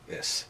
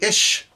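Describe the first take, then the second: First: The word ends in an 's' sound. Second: The word ends in an 'sh' sound. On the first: The speaker calls it right. "It's pronounced is" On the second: The speaker calls it wrong. "Should be ish"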